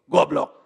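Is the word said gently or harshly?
harshly. The word is said in a harsh, insulting tone. The listener feels insulted and gets angry. "saudara marah dong sama saya"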